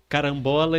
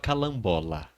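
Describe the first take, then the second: First: The middle consonant is an R sound. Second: The middle consonant is an L sound. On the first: The speaker calls it right. "ao invés de falar" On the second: The speaker calls it wrong. "ele falava calambola"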